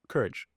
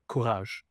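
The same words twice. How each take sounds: First: The word is pronounced the English way. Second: The word is pronounced the French way. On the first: "Literally the same word" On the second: "It felt right to say it in French"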